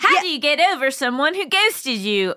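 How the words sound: It is read in a Canadian-sounding accent. "So that was Canadian"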